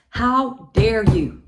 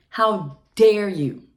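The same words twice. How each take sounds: First: Louder, slow, punched HOW; slow furious how dare you. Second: Louder, slow, hit DARE; slow furious how dare you. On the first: Confronting the ex, slow and furious. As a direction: spit it at him. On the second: Confronting the ex again, slowly. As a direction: stress dare hard. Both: Real, not acted.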